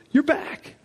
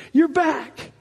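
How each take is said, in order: First: Tender you're back. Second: Higher, joyful cry of You're back. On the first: Father holding his son close, tender. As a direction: hush it into his ear. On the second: Father embracing his lost son, joyful. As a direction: call it out in relief. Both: Retold or imitated.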